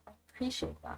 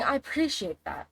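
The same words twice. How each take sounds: First: "I appreciate that" whispered, no voice; a whispered "I appreciate that" to the viewer; whispered thanks. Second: Said in the usual way. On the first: Real, not acted. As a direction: breathe "I appreciate that" as a soft whisper. Thanking a chat viewer, repeated.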